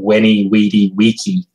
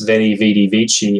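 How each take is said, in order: First: Each word begins with a W sound. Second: Each word begins with a V sound. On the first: This may be how the Romans themselves said it. "pronounced with a W sound by the Romans" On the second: This is the familiar modern way of saying it. "Julius Caesar's famous"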